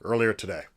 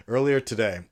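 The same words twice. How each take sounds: First: Grand, declaiming mock-statesman voice; mock presidential address. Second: Said in the usual way. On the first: Vlogger parodying a national address, grand and declaiming. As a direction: announce it like a head of state. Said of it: "I don't know why I keep doing this accent". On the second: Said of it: "But in all seriousness".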